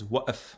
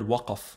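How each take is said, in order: First: The middle consonant is a glottal stop. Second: The middle consonant is a deep uvular k. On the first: "the Qaf becomes a glottal stop" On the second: "the word waqaf for stop"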